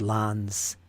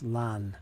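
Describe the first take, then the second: First: The word ends with an S sound. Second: The word ends without an S sound. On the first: "I've always said lans" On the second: "So there's no S sound there"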